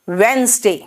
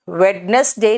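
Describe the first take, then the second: First: The middle letters are dropped, in two syllables. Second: Every letter is sounded, in three syllables. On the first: The speaker calls it right. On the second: The speaker calls it wrong. "वेडनेसडे नहीं होता"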